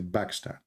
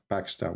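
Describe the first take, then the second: First: The word begins with a B sound. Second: The word begins with a P sound. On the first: "we say Pakistan. ... in Arabic, we don't have P" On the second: "we don't say like Pakistan"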